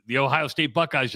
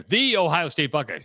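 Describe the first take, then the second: First: Said in the usual way. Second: "The" stretched and stressed as "thee". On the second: Shown as a demonstration. Host correcting the team's name, stress on "The". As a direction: punch "The" as a long, proud "thee". Restates name with emphatic article.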